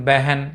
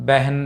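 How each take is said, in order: Both takes have the same delivery.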